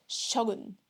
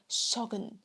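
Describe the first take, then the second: No difference in how they are said.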